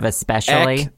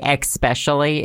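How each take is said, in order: First: The word begins with an 'es' sound. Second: The word begins with an 'ex' sound. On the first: The speaker calls it right. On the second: The speaker calls it wrong.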